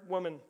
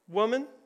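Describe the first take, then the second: First: It is said in a flat monotone. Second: It is said with lively, expressive intonation. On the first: "I'll just say it monotone" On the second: "let me try to peel back my own intonation in that"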